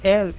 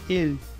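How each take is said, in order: First: The E vowel is open. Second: The E vowel is closed. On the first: The speaker calls it wrong. "em vez de El" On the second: The speaker calls it right. "é El"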